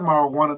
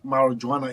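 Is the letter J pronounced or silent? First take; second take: silent; pronounced. First: The J is silent, not sounded. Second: The J is pronounced as a J sound. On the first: The speaker calls it right. "It's actually marijuana. The J is silent" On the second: The speaker calls it wrong. "people can say marijuana"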